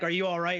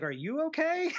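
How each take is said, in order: First: Said in the usual way. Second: Much higher retold question, "okay" held up high; question turned back. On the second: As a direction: stress on "you", soaring very high through "okay". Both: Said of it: "And she's like".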